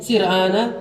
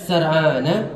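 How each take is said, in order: First: The first vowel is an i sound. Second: The first vowel is an a sound. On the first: "boleh sir'ana" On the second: "Boleh kita baca sar'ana"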